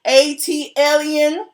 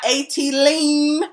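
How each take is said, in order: First: After A-T, the word ends in 'alien'. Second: After A-T, the word ends in 'lean'. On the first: The speaker calls it right. "learn how to pronounce A T alien" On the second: The speaker calls it wrong. "not A T lean"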